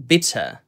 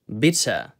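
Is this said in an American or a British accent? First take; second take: British; British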